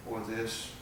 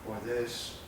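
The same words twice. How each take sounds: The two takes are said the same way.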